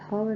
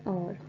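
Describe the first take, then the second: First: The word begins with an h sound. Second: The word begins with a vowel sound. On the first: The speaker calls it wrong. "हावर नहीं है" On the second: The speaker calls it right. "एच जो है ना start में silent है"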